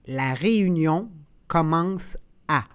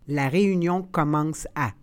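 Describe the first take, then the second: First: The phrase is said slowly and carefully. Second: The phrase is said at natural conversational speed. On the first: "then slowly said in French" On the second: "and then in communicational Canadian French"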